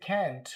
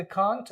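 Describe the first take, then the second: First: American "can't" with an open a, as in cat; American pronunciation. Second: British "can't" with a long ah, kaant; British pronunciation. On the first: Teacher contrasts how Americans say it, American flat-a vowel. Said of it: "American they say". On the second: Teacher contrasts how British people say it, British ah. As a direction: say "can't" the British way, broad ah vowel. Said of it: "British वाले इसको बोलते". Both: Shown as a demonstration.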